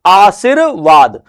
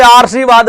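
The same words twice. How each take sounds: First: आशीर्वाद slowly as "aa-seer-vaad"; slow, syllable by syllable आशीर्वाद; correct R placement. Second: आशीर्वाद misread as "aar-see-vaad"; wrong "aarsivaad" for आशीर्वाद; misplaced R. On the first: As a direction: stretch आशीर्वाद, R just before वाद. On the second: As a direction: put the R of आशीर्वाद right after आ. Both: Shown as a demonstration. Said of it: "जबकि सही शब्द क्या है".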